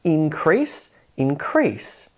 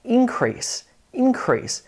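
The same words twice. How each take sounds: First: InCREASE, the verb form; stress on second syllable. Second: Increase with a high, strong IN; INcrease, the noun form; stress on first syllable. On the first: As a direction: save the weight in increase for CREASE. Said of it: "stress falls on the second syllable". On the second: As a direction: punch IN high in increase, then drop. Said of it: "you emphasize that first syllable". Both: Shown as a demonstration.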